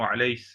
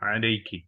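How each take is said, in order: First: The word ends with an s sound. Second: The word ends with a k sound plus vowel. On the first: A dialect form called kaskasa. "सीन में बदल दिया" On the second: The standard greeting to a woman. "अगर मुअन्नस है तो उसको क्या बोलेंगे? अस्सलामु अलैकी"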